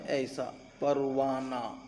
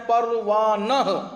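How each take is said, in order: First: پروانہ softer and lower, ending on a short a with no h; spoken form. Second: پروانہ slowed, with the final ہ breathed out; written form. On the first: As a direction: say پروانہ as used, dropping the final h. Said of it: "لیکن استعمال کیسا ہوتا ہے؟". (بولنے میں ہ کے بغیر، زبر کے ساتھ پروانہ) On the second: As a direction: say پروانہ as written, ending on a clear h. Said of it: "اصل میں کیا ہے؟". (لکھی ہوئی صورت میں آخر کی ہ کے ساتھ پروانہ) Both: Shown as a demonstration.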